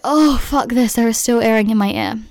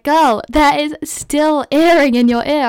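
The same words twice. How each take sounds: First: Mildly exasperated, a touch louder; mock fed-up groan of a reply; retold exasperation. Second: High, slow, louder mock doctor voice; drawn out, sing-song and a little incredulous; imitating the ear doctor. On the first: Patient answering her doctor, mildly exasperated. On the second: Ear doctor telling her the earring is still in, high and slow.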